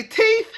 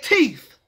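First: "teeth" said as "teef". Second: Said in the usual way. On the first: Shown as a demonstration. Vlogger showing the switched sound, "teeth" as "teef". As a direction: end "teeth" on an F, not TH. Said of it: "We did not say teeth". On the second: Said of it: "We said teeth".

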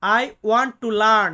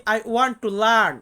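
First: Very slow and louder, "I want to learn" with weight on want; slow emphatic repeat. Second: Very slow, each word of "I want to learn" spelled out, stress on learn; slow teacher demo. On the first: (আরও জোরে, want শব্দে জোর দিয়ে ধীরে বলা) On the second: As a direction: model "I want to learn" for learners, dragging every word, landing on learn. (খুব ধীরে, learn শব্দে জোর দিয়ে শেখানো) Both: Shown as a demonstration. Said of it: "ইংরেজিতে আমরা বলি".

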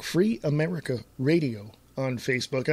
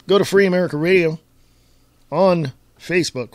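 First: Softer, more measured repeat of the plug. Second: Rattled-off radio plug; fast. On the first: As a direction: separate the words for listeners. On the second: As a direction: run the name together quickly. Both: Real, not acted. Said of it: "I know I say that so fast".

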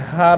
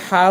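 First: হা from the very start of the throat; start-of-throat letter. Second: হা from the middle of the throat; tightened pharyngeal h in হা; mid-throat letter. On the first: Teacher contrasting two often-confused letters, throat-start হা. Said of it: "সেটা এই শুরু থেকে হবে". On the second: Teacher contrasting two often-confused letters, mid-throat হা. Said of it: "গলার মাঝখান থেকে". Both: Shown as a demonstration.

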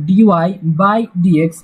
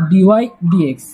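First: "ডিওয়াই by ডিএক্স" read with "by" between the parts, as if it were a division; the mistaken "ডিওয়াই by ডিএক্স" with an added "by"; "ডিওয়াই by ডিএক্স" voiced as a fraction, the wrong way. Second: "ডিওয়াই ডিএক্স" said straight through with no "by"; "ডিওয়াই ডিএক্স" as two plain terms, nothing between them; the right way: "ডিওয়াই ডিএক্স" with no "by"; correct reading. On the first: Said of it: "কেউ যদি ভুল করেও এভাবে উচ্চারণ করো". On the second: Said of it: "এটা হলো ডিওয়াই ডিএক্স". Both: Shown as a demonstration.

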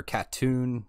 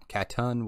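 First: Katoon with a long "oo" at the end; trying a pronunciation. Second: Katun with a short final vowel, not "oon"; trying a pronunciation. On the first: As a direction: say Katoon ending like "tune". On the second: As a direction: say Katun ending like "tun". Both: Shown as a demonstration.

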